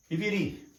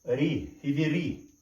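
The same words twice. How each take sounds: First: Said in the usual way. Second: Riviri drawn out slowly, syllable by syllable; slow spelled-out word. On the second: Shown as a demonstration. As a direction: sound out Riviri slowly for the class. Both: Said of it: "teacher models the Hebrew word".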